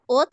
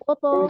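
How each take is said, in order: First: The tongue opens flat, releasing a light 'ta'. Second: The held heavy sound is kept through the release. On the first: The speaker calls it wrong. "ऐसे जबान खोल देंगे तो आवाज आ रही है ओ त ... ता नहीं बनाना इसको" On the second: The speaker calls it right. "इसको कलकले तक मेंटेन रखें"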